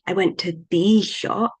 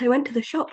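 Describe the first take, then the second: First: The word 'the' carries the stress. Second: The word 'shop' carries the stress. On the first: It was a special or already mentioned shop. "might imply that I went to an exciting shop or a shop that we were talking about" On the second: The shop was the only place visited. "says that I went to the shop, nowhere else"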